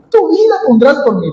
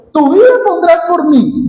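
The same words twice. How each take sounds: First: "Tu vida pondrás por mí" high and fast, skeptical; doubting tone, quicker. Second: "Tu vida pondrás por mí" pitched much higher, a skeptical question; doubting tone. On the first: Jesus repeating Pedro's boast back, fast and incredulous. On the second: Jesus answering Pedro's boast, incredulous and high. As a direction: read it as if you can't believe him. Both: Shown as a demonstration. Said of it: "Yo lo leo con este tono".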